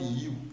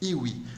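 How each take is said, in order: First: It is said as one syllable, like 'you'. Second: It is said as two syllables, 'ee-wee'. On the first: The speaker calls it right. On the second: The speaker calls it wrong.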